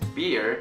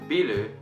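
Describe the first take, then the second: First: It is said with English sounds, as one syllable. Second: It is said with Japanese sounds, as two syllables. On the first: "but as you guys know, it's beer" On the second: "in Japanese, people call this thing biru"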